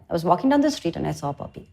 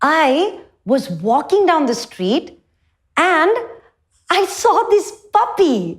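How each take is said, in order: First: It is said plainly, without expression. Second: It is said lively, with animated expression.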